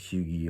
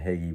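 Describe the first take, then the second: First: It is said with a guessed Norwegian pronunciation. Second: It is said with an American pronunciation. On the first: The speaker calls it right. "but I think it's Hugie" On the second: The speaker calls it wrong. "here in America we pronounce it Hagee"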